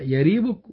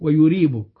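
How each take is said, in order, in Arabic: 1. في المقطع الأول حركة a. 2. في المقطع الأول حركة u. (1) "بفتح الياء" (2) "وضمها"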